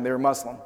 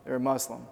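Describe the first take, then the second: First: Said in the usual way. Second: Soft repeat. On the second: Shown as a demonstration. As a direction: lower and much softer, letting it land. Repeats the point for weight.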